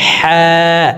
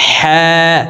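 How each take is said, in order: Both takes have the same delivery.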